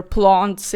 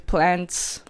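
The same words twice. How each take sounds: First: "plants" as plahnts, open ah; Afrikaans-style plants. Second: "plants" with a short a as in cat; front, flattened a in "plants", no ah; English-style plants. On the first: Vlogger naming both variants, broad Afrikaans-style pronunciation. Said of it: "in Afrikaans". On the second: Vlogger naming both variants, short-a pronunciation first. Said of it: "the word plants or plants". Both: Shown as a demonstration.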